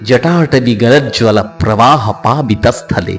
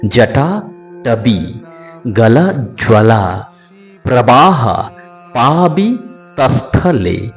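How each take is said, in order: First: The words run together without breaks. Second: The words are split into separate chunks. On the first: "একসঙ্গে বাক্যটা একটু অন্য ধরনের" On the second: "ভেঙে ভেঙে উচ্চারণের রীতি"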